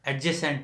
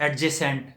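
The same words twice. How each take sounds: No difference in how they are said.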